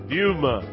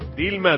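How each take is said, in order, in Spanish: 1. La l se pronuncia como una U. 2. La l se pronuncia como una L clara.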